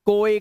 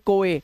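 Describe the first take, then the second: The two takes are said the same way.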